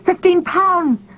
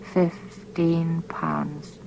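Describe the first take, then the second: First: High, loud, slow shout. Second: Slow, barely-there breathless whisper; silent mouthing. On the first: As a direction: cry it out in horror, pitched way up. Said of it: "It came out now as a shout". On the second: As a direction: mouth the words almost without sound. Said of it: "His lips formed the silent words". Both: A narrator's reading.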